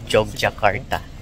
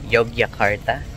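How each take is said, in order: First: The name begins with a 'j' sound. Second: The name begins with a 'y' sound.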